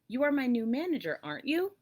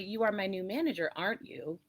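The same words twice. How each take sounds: First: The voice rises at the end of the tag. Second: The voice falls at the end of the tag. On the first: The speaker is genuinely asking a question. "the intonation will go up because you're inquiring" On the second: The speaker presumes it and seeks agreement. "it's more of a statement again. It's a presumption"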